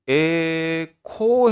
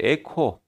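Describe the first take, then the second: First: 에코 with both syllables stretched out; 에코 spread out long, syllable by syllable; drawn-out pronunciation. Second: Said in the usual way. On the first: Shown as a demonstration. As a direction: say 에코 very slowly, holding each vowel. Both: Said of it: "에코 해도 발음은 똑같죠".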